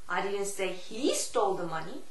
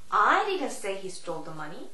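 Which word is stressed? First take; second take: he; I. First: The stress falls on the word he. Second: The stress falls on the word I. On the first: "He의 강세를 주느냐" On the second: "I의 강세를 주느냐"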